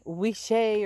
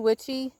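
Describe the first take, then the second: First: The middle consonant is a 'sh' sound. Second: The middle consonant is a 'ch' sound. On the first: This is a possible alternative way of saying it. "It could be wishy or something" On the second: This is the speaker's usual way of saying it. "I say witchy"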